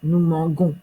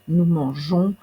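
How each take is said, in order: First: The g is hard, like in garçon. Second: The g is soft, like a zh sound. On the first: The speaker calls it wrong. "ça deviendrait nous mangons" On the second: The speaker calls it right. "il nous faut ce G doux"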